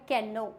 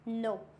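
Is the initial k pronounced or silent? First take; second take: pronounced; silent. First: The word begins with a pronounced k sound. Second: The word begins with an n sound. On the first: The speaker calls it wrong. "कैनो एकदम गलत हो जाता है" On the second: The speaker calls it right. "यहाँ पे के silent होता है तो इसको हम पढ़ते हैं नो"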